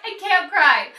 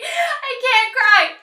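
First: Said in the usual way. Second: High, slow, pleading as tears come; fighting tears. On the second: Real, not acted. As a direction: hold back the tears on I.

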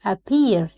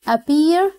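First: Said in the usual way. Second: Appear said higher and louder; teacher calling out a word. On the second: Shown as a demonstration. Teacher loudly announcing a new vocabulary word.

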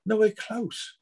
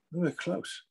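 First: Nowhere close, raised higher with a scornful push; emphatic repeat. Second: Muttered under breath, much softer; thought to himself. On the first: Real, not acted. Coach scoffing to a friend about others' training, higher and emphatic. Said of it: "They have no idea". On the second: Retold or imitated. Coach thinking to himself about gym boasts, said softly. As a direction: keep it as a private thought, barely voiced. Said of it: "I'm thinking to myself".

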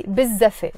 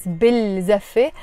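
First: "biz zaffe" with the l turned into a doubled z; assimilated "biz zaffe", no l at all; silent l. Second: "bil zaffe" with a clear l before the z; unlinked "bil zaffe", l fully voiced; l pronounced. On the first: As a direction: link biz into zaffe on one long z. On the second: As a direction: keep bil and zaffe apart, sounding the l. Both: Shown as a demonstration. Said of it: "I don't pronounce the l".

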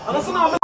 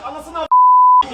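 First: Said in the usual way. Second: Long drawn-out angry yell; furious yell. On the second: Real, not acted. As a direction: explode at the screen. Furious at a goal.

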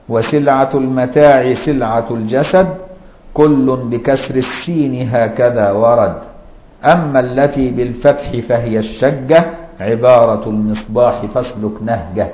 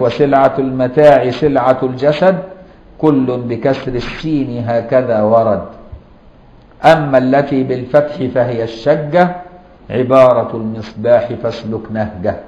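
First: Slow, measured recitation of a teaching poem; reciting verse. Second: Reciting verse. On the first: Teacher to students, reciting the grammar verse slowly. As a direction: chant the rhyme line by line for memorizing. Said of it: "ولذلك قال بعضهم". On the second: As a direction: recite it steadily so it sticks. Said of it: "يقول لك". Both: Shown as a demonstration.

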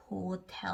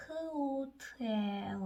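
First: Said in the usual way. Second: 호텔 stretched slowly, 흐-오-트-에-으; sounding out. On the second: Shown as a demonstration. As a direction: slowly run the sounds of 호텔 together. (호텔을 한 소리씩 길게 이어서) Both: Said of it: "H는 흐".

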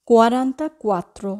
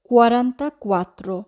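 Both takes have the same delivery.

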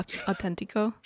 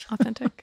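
First: Softly said mock Spanish accent; horrible Spanish accent. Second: Said in the usual way. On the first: Shown as a demonstration. Host explaining the joke to co-host, horrible Spanish accent. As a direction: show off your bad Spanish accent. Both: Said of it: "making fun of my horrible Spanish accent".

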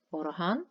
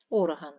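First: Орган rising on stressed -ган; stress on second syllable. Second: Орган with a loud first О; stress on first syllable. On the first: Teacher explaining a musical instrument, second-syllable stress on орган. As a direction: lean on the end of орган. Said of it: "музичний інструмент". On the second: Teacher explaining a body part, first-syllable stress on Орган. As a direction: hit the opening vowel of Орган. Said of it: "тіла людини". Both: Shown as a demonstration.

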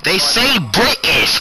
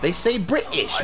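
First: "British" loud and high, T dropped to a glottal stop; a loud, mocking British "British" with no T; mock British pronunciation. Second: "British" with the T swallowed, less loud; a milder mocking British "British"; quieter mock British. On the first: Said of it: "There's a T in British". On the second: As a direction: repeat "British" with no T.

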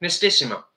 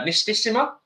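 First: Nistissima said firmly with a falling tune; confident pronunciation. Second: Nistissima tried out with a rising question tune; unsure pronunciation. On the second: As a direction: say Nistissima hesitantly with a rise at the end. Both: Shown as a demonstration.

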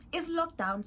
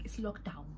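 First: Lockdown burst out high and loud; a sudden excited cry of lockdown; exclaimed. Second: Said in the usual way. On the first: Shown as a demonstration. Telling her friends the news, excited high loud cry.

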